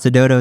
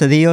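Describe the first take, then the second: First: The name ends with a 'dodo' sound. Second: The name ends with a 'dillo' sound. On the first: The speaker calls it wrong. "Everybody's like, oh my God" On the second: The speaker calls it right. "it's a dillo, like an armadillo. It rhymes"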